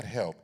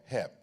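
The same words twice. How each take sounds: First: Said in the usual way. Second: "help" said as "hep", with no L; short "help" pronounced "hep"; dialect "help". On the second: Shown as a demonstration. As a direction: drop the L so "help" becomes "hep". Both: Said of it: "not help, help".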